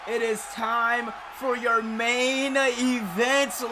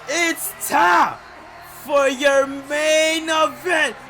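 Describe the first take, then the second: First: It is said in the speaker's normal voice. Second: It is said in a put-on imitation voice.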